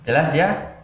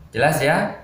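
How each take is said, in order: No difference in how they are said.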